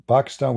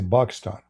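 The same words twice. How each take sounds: First: Said in the usual way. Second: Pakistan said as "Bakistan", P turned to B; Arabic pronunciation. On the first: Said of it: "we say Pakistan". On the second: Shown as a demonstration. Showing viewers how Arabs say Pakistan, B for P. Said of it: "In Arabic, we don't have P".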